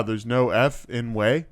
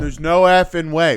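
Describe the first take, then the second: First: Slow, with F and in set apart as separate words; careful repetition. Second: Put-on raised, loud kid's protest; retold insistence. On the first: Retold or imitated. Kid repeating it for the teacher, slow careful "F in way". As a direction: spell out "F in way" slowly, at ordinary volume. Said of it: "you wanna say that again?". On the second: Kid arguing with Brian, loud insistent protest. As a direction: run the words together as an exasperated objection.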